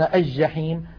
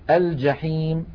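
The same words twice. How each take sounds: First: The L merges into the doubled next consonant. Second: The L is pronounced clearly before the consonant. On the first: The speaker calls it wrong. "ويقولون" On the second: The speaker calls it right. "الفصحى أن نقول"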